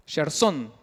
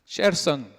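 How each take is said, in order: First: "Gerson" con la última sílaba acentuada, "SON"; acento en la O. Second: Said in the usual way. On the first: Shown as a demonstration. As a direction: stress the O of "Gerson", the last syllable. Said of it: "con acento en la O". ("Gerson" con acento agudo en la O) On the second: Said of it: "pero con acento en la O".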